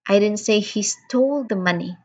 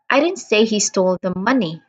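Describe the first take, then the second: First: The word stole carries the main stress. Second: The word money carries the main stress. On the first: He did not commit the act of stealing. "I am stressing on the word stole" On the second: He stole something else, not the money. "I am stressing on the word money"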